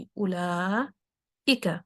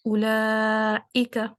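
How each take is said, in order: First: "اولائکا" very slow, with a long silence before i-ka; exaggerated gap. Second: "اولائکا" with long la and an immediate fresh i; "اولائکا" with a quick glottal catch, no gap; instant hamza. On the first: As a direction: draw out "la" in "اولائکا", pause, then say i-ka. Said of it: "لیکن اتنا gap نہیں آنے دوں گی". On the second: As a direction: cut the long vowel in "اولائکا" and restart at once. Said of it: "وہ بالکل instant ہوگا". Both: Shown as a demonstration.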